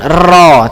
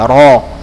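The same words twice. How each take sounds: First: The r is trilled heavily with several taps. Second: The r is trilled lightly with one tap. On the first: The speaker calls it wrong. "bukan ro" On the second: The speaker calls it right. "tapi sedikit aja ro"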